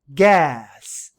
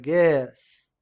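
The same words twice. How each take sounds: First: The vowel is a wide-open sound between A and E. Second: The vowel is an E with mouth half closed. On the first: "É como se você abrisse a boca para falar um A, mas você fala um E" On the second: "É um E aberto, né, mas com a boca meio fechada"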